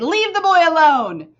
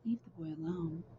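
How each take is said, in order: First: It is yelled loudly, like a father. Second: It is said calmly, without yelling.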